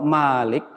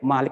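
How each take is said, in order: First: The first vowel is long. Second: The first vowel is short. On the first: It means owner. "Tapi kalau Malik itu bentuk fa'il yang memiliki" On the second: It means king. "Kalau pendek Malik itu ra, raja"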